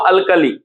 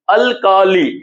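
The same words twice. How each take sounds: First: Said in the usual way. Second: अल्कली in three parts, al, kaa, lee; अल्कली spaced out with a long "kaa"; syllable by syllable. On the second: Shown as a demonstration. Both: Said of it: "उच्चारण से पता चल रहा है".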